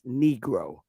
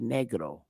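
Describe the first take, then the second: First: The word is said with an English pronunciation. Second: The word is said with a Spanish pronunciation. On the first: "we pronounce it in English as negro" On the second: "When we say it in Spanish or Portuguese, we say negro"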